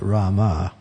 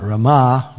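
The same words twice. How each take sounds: First: Rama with a long first "RAH" and a falling end; long first vowel. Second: Rama with a short first vowel and a loud, long final "AH"; stressed final syllable. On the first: Correcting the chanters, Rama led by a long first syllable. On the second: Correcting the chanters, Rama stressed on the last syllable. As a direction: lean hard on the end of Rama, "ruh-MAH". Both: Shown as a demonstration. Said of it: "Not Rama, but Rama".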